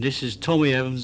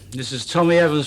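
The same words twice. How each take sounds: First: It is said in an Australian accent. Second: It is said in his normal accent.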